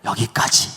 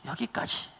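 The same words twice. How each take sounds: First: Said in the usual way. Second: Whispered echo of 여기까지. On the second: Shown as a demonstration. Preacher echoing the limit, whispered. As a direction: breathe 여기까지 again as a hushed echo. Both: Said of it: "repeated word".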